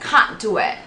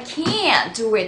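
First: It is said in a British accent. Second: It is said in an American accent. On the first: "영국식 이 발음은" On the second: "미국식 발음을 해야 되니까"

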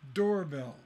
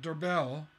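First: The stress is on the first syllable. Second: The stress is on the second syllable. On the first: The speaker calls it right. "So door is the stress and bell is unstressed" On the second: The speaker calls it wrong. "It's not doorbell"

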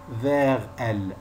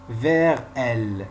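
Both takes have the same delivery.

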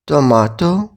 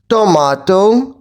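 First: The word is said quieter still. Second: The word is said loudly. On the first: "тихіше" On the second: "Голосно"

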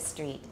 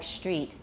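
First: The word begins with a plain "s" sound. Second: The word begins with a "sh" sound. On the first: "instead of street" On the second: "ST is turning into st. ... Like street"

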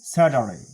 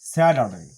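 No difference in how they are said.

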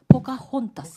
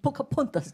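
First: The third syllable begins with an h sound. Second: The third syllable begins with a p sound. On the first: The speaker calls it right. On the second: The speaker calls it wrong.

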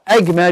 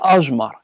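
First: The middle consonant is a hard g sound. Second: The middle consonant is a soft j sound.

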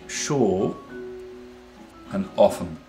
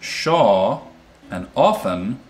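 First: It is said in a British accent. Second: It is said in an American accent. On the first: "Whereas if I'm a Brit, then that might be" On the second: "for me, Shaw and often are the same"

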